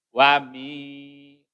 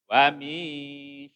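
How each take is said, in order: No difference in how they are said.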